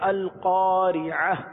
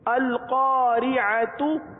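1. یہ لفظ نرم 'h' کی آواز پر ختم ہوتا ہے۔ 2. یہ لفظ 'tu' کی آواز پر ختم ہوتا ہے۔

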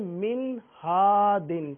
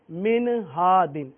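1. ن بغیر قلقلے کے صاف ادا ہوتا ہے۔ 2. ن قلقلے کی گونج کے ساتھ ادا ہوتا ہے۔ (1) "یہاں پر اظہار کا قاعدہ ہوگا ... تو پڑھیں گے" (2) "اس میں قلقلہ کی آواز پیدا کر دی جاتی ہے، جیسے"

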